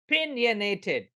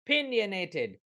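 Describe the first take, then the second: No difference in how they are said.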